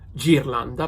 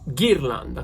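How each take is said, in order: First: It begins with a soft j sound. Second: It begins with a hard g sound. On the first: The speaker calls it wrong. "which doesn't sound like ghirlanda" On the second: The speaker calls it right. "but ghirlanda because of the H"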